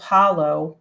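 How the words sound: The word ends with an 'oh' sound. "you won't get the o"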